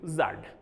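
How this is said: The letter is said the Kashmiri way, zad.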